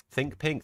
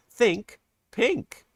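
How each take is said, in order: First: Said in the usual way. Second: Higher, louder sung "Think pink"; sung catchphrase. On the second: Acted. Streamer quotes Grease, singing "Think pink" higher and louder. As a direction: sing out "Think pink" brightly and loud.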